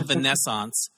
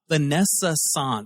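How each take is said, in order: First: The word is said with three syllables. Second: The word is said with four syllables. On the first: The speaker calls it wrong. "It's not the Vanessance" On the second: The speaker calls it right. "Vanessa-sance. Yeah, that's how it"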